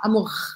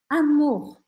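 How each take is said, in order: First: The final R is forceful and scratchy. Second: The final R is soft and airy. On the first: The speaker calls it wrong. "quando você pensa em força, você vai querer fazer algo assim" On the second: The speaker calls it right. "você não precisa arranhar, você não precisa colocar muita força"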